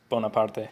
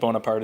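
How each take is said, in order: First: The name is said with an Italian pronunciation. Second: The name is said with a French pronunciation.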